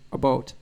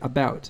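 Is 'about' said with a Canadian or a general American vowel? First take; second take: Canadian; general American. First: The vowel is raised in the Canadian way. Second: The vowel sounds like general American English. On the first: "which is how a lot of Canadians say that word" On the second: "I've tried to make an effort to say things like about"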